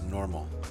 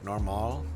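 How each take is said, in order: First: The word has an American English accent. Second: The word has a French-like accent. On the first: "like American English, which is just normal" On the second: "more like normal... that's how it is kind of in French"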